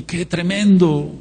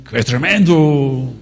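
First: Mock Chilean lilt, higher and slow; imitating a Chilean brother's Chilean accent. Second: Slow mock Castilian Spanish accent; imitating a brother from Spain in a Spanish accent. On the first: Preacher quoting a Chilean brother to the congregation, light Chilean accent. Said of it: "me decía un hermano de Chile". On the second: Preacher quoting a brother from Spain, light Spanish accent. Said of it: "Otro hermano que está aquí de España dice".

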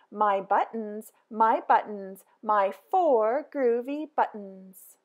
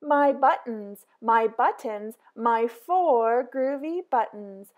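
The two takes are said the same way.

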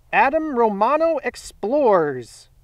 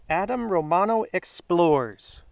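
First: Slow, raised announcer call; winner announcement. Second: Slow, subdued repeat of a name; name read back. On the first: Host reveals first giveaway winner, slow announcement. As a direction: draw out the winner's name with ceremony. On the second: Host confirms the winner's name, subdued read-back. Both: Real, not acted.

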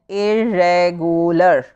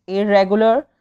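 First: Irregular slowly split into four syllables. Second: Said in the usual way. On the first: Shown as a demonstration. Teacher demonstrating four syllables to pupils, irregular slowly broken up. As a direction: draw out every syllable of irregular. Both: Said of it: "there are four syllables".

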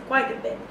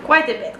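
First: Quite a bit whispered, much softer; whispered aside. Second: Said in the usual way. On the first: Acted. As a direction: breathe it out as a secret echo in the foreign accent. Repeats phrase, second time whispered.

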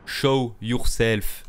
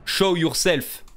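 First: Put-on very slow, louder English in a heavy French accent. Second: Put-on loud, higher English with a heavy French accent. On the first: Streamer slowly ordering the ghost in French-accented English. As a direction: stretch each word out with a French accent. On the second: Streamer shouting at the ghost in French-accented English. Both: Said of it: "Putain, mon accent, il est pourri".

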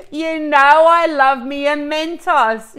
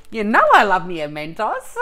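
First: Loud and slow, beaming with delight; thrilled exclamation. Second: Said through real laughter, loud; laughing. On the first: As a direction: belt out your joy at the gift. Thrilled by the Mentos gift. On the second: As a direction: giggle your way through the line. Repeats it laughing. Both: Real, not acted.

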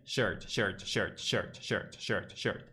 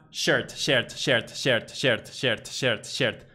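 First: "shirt" repeated low and soft, vowel sunk into the R; correct schwa. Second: "shirt" repeated with a clear E before R; wrong "shert". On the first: Teacher drills the right version, soft throaty shirt. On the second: Teacher drills the mistake for learners, repeated "shert". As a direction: chant "shirt" as "shert", falling each time. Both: Shown as a demonstration.

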